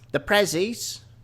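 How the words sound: It is said in a put-on Cockney accent.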